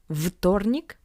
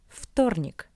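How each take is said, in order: First: The first consonant is a voiced 'v' sound. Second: The first consonant is a voiceless 'f' sound. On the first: The speaker calls it wrong. "Not вторник" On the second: The speaker calls it right. "but вторник"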